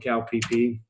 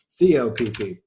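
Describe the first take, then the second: First: It is said partly as one word. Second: It is spelled out letter by letter.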